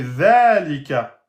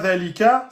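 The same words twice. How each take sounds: First: The first vowel is held long. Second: The first vowel is short. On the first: The speaker calls it right. "il y aura bien une prolongation de temps" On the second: The speaker calls it wrong. "c'est pas zalika"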